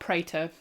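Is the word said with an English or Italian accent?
English. It is said with an English accent. The speaker calls it wrong. "which is what I was calling them earlier in the week"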